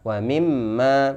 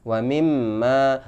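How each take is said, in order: Both takes have the same delivery.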